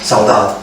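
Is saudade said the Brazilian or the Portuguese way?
Portuguese. It is said the Portuguese way, sounding pained. The longing is felt as a wound. "When I hear the Portuguese saying saudade, it's like they're putting a knife in their heart"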